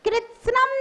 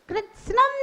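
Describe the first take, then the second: The two takes are said the same way.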